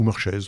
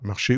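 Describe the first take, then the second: First: The name ends with a z sound. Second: The name ends in a vowel, no z.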